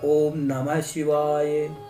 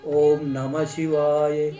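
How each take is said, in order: Both takes have the same delivery.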